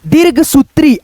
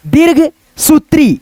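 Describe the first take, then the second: First: दीर्घ सूत्री said as one joined word. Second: दीर्घ and सूत्री as two separate parts with a gap; split in two parts. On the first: Teacher showing how to join the two parts into one word. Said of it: "combine करके एक बार बोल देंगे". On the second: Teacher showing how to split a long word into two parts. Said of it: "दो भागों में divide करके". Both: Shown as a demonstration.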